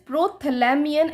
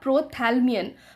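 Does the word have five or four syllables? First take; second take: five; four. First: The word is said with five syllables. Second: The word is said with four syllables. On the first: The speaker calls it right. "The correct pronunciation to this is प्रोथैलेमियन" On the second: The speaker calls it wrong. "Which is very wrong"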